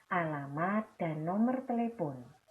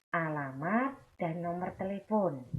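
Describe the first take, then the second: No difference in how they are said.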